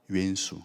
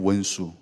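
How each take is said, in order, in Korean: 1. 첫 모음은 더 거칠고 무딘 'oen'입니다. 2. 첫 모음은 부드럽고 둥근 'won'입니다. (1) "좀 더 센 발음" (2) "부드럽게"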